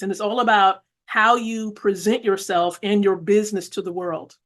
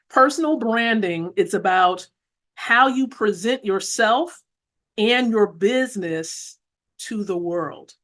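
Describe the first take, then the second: First: It is said at a normal speed. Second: It is said slowly and deliberately.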